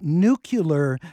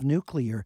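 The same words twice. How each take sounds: First: The word is said in the common alternate way. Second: The word is said in the standard way. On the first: The speaker calls it wrong. "it almost became an alternate wrong pronunciation" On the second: The speaker calls it right. "instead of nuclear"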